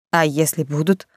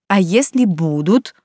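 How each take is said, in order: First: Said in the usual way. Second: Insistent, slow stress on "если будут"; stubborn repeat. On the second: A narrator's reading. Ludmila pressing her friend, stubborn "если будут". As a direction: press each word of "А если будут", drawn out. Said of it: "упрямо переспросила Людмила".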